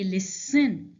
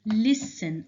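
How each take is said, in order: First: "listen" as lis-SEN, weight on the end; wrongly stressed last syllable. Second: "Listen" as LIS-en, weak last syllable; stress on first syllable. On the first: Teacher showing what was not said, "listen" wrongly stressed on SEN. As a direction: punch the second syllable of "listen". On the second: Teacher showing correct stress, "Listen" stressed on first syllable. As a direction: hit the start of "Listen", let the end drop. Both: Shown as a demonstration. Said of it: "I did not say listen".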